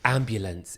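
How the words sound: It is pronounced with English sounds. "ambulance in English"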